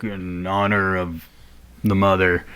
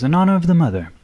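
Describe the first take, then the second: First: Lazarus. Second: Higher-pitched ceremonial salute; Bert. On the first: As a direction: lower the voice for a restrained salute. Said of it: "looks around and he's like". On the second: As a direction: lift the pitch high on "honor", then let it fall. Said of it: "And Bert does a little bow and goes". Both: Acted.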